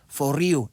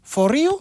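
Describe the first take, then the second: First: The voice falls at the end. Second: The voice rises at the end.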